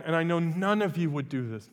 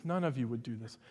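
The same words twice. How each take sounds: First: Said in the usual way. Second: Lower, softer wry repeat; muttered teasing repeat; quiet aside. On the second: Real, not acted. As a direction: drop it under your breath as a joke.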